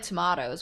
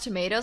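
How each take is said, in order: First: It is said in a British way. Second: It is said in a non-British way.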